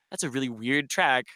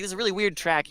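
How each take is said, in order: First: Said in the usual way. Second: Pitched well up, mimicking the amazement; retelling a friend's amazed verdict on a record, in a high voice; mock-amazed repeat. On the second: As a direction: echo him in a high marvelling voice.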